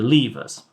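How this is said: The word is said the British way. "so we use the British variant"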